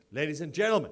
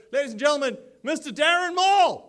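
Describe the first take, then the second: First: Said in the usual way. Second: Rising, louder and higher, to a big name call; ring-announcer style build to the name. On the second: Acted. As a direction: build the intro to a crowd-pleasing peak. Announcing the MC onstage.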